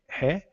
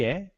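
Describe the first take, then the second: First: "ré" begun with an audible h, as "hé"; aspirated Greek "ré", sounding like "hé"; rough breathing on "ré". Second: "é" begun straight on the vowel, no h; clean, unaspirated Greek "é"; smooth breathing on "é". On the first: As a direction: puff an h into "ré", high and loud. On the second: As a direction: say "é" high and loud with a clean onset. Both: Shown as a demonstration. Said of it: "com aspiração áspera".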